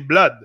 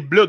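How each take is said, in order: First: The vowel differs from the one in hood. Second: The vowel sounds like the one in hood. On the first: The speaker calls it right. "We say blood" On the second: The speaker calls it wrong. "we don't say blood"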